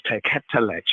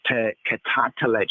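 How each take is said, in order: First: Teketelech, said short with three syllables, te-ke-te-lech; the shorter form. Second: Teketatelech, with the added ta syllable, te-ke-ta-te-lech; the intensive form. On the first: Teacher showing the lesser word form, plain teketelech. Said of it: "How the word is not just teketelech". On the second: Teacher contrasting word forms, drawing out teketatelech. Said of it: "not just teketelech, but teketatelech". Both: Shown as a demonstration.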